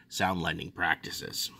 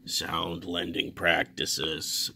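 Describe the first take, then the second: First: Said in the usual way. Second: "Sound lending practices" very slow, low and weighty; emphasis on "Sound lending practices". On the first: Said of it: "Put emphasis on that". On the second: Shown as a demonstration. Telling viewers how to read it, "Sound lending practices" drawn out emphatically. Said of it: "Put emphasis on that when you read it".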